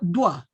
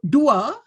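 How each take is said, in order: First: The vowels glide together into one syllable. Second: The vowels are said as two separate syllables. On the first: The speaker calls it wrong. "tetapi disebut dua" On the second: The speaker calls it right. "Dia tidak disebut dua"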